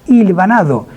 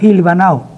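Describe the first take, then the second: First: The opening H is silent and the D is kept. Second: The opening H sounds like a J; D dropped.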